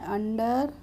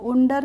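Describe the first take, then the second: First: The first vowel sounds like 'uh'. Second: The first vowel sounds like 'oo'. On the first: The speaker calls it right. "इसको हम पढ़ते हैं अंडर" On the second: The speaker calls it wrong. "उंडर नहीं पढ़ते हैं"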